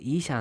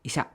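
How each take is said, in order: First: The first vowel is long. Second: The first vowel is short. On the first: The speaker calls it wrong. "ನೀವು ಈಶಾ ಅಂದ್ಬಿಟ್ಟು" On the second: The speaker calls it right. "ಹಾಂ ಎಸ್ ಇಶಾ"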